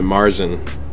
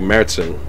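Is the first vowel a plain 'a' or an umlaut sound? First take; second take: plain a; umlaut. First: The first vowel is a plain 'a' sound. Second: The first vowel has an umlaut sound. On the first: The speaker calls it wrong. "Americans pronounce it Marzen" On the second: The speaker calls it right. "it has the umlaut over the A, so that means it's pronounced like Märzen"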